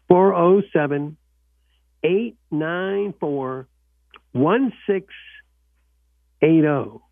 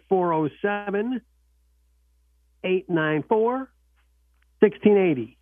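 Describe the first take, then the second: First: The number is said slowly and carefully. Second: The number is said at normal speed.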